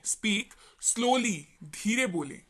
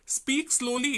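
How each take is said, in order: First: Each word stretched out slowly. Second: Said in the usual way. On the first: Shown as a demonstration. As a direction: drag out Speak slowly word by word, showing what it means. (बहुत धीरे-धीरे खींचकर बोला गया)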